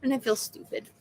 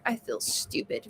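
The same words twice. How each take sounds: First: Said in the usual way. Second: Whispered, much softer. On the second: Retold or imitated. Retelling what she told her doctor, in a whisper. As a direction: breathe it out as a hushed confession. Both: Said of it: "That's what I told my doctor".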